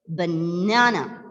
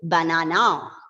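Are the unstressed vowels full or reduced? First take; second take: reduced; full. First: The unstressed vowels are reduced to schwa. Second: The unstressed vowels are full, unreduced vowels. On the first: The speaker calls it right. "So that is how it is reduced to the shortest schwa sound" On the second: The speaker calls it wrong. "We won't say banana"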